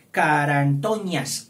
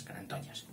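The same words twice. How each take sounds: First: "Carantoñas" drawn out loud and slow; slow dictation. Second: Said in the usual way. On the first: Shown as a demonstration. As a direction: dictate "Carantoñas" with long, stretched syllables. Teacher dictates the word slowly.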